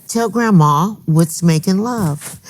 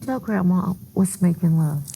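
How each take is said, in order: First: Slow, gentle coaxing grandma voice; a sweet grandma asking a child. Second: Softer, gentle grandma coaxing; a sweet grandma asking a child. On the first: Retold or imitated. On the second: Shown as a demonstration. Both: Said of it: "'cause that's my grandma voice".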